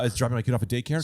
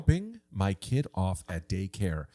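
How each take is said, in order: First: It is said at a normal, faster pace. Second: It is said slowly and softly.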